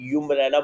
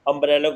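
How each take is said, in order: First: The word begins with a 'y' sound. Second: The word begins with a plain 'uh' vowel. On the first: The speaker calls it wrong. "ये नहीं है कि अम्ब्रेला को मैं यूम्ब्रेला बोल दूंगा" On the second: The speaker calls it right. "अम्ब्रेला में अ वाली आवाज आ रही है"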